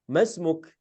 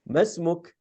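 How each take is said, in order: Both takes have the same delivery.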